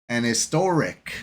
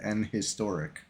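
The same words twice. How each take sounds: First: The h of historic is dropped and silent. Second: The h of historic is clearly pronounced. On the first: The speaker calls it right. "if you don't pronounce the H" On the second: The speaker calls it wrong. "If you pronounce the H, it sounds really weird"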